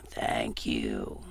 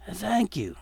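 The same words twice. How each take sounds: First: Much lower, dragged-out undead groan; low, slow zombie voice. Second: Said in the usual way.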